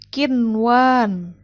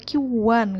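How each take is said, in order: First: The n is clearly pronounced before w. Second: The n merges into the following w. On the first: The speaker calls it right. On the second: The speaker calls it wrong.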